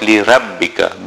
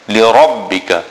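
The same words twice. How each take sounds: First: The r sound is thin and light. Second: The r sound is full and heavy. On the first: The speaker calls it wrong. "It is not li-rabbika" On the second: The speaker calls it right. "the ra is full mouth"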